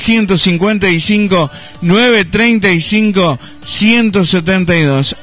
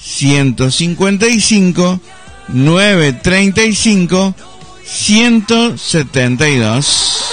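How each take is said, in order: First: It is said at normal speed. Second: It is said slowly and carefully.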